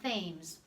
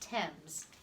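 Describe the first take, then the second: First: The word is sounded out the way it is spelled. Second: The word is not sounded the way it is spelled. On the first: The speaker calls it wrong. "It's not Thames" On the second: The speaker calls it right. "It's pronounced Thames"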